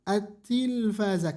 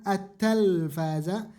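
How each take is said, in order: First: The vowel after the first t is 'i'. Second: The vowel after the first t is 'a'. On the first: The speaker calls it right. "kan ada tasdid ... berkasrah" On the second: The speaker calls it wrong. "kenapa bukan at-talfaza"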